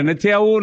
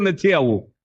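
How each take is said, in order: First: A mild mock yell of નથી આવવું, raised and pushed on આવવું; retold yell. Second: Said in the usual way. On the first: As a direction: grandpa refusing, half-hearted holler. (હળવી નકલી બૂમ) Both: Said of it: "ફળિયામાં બૂમો પાડે".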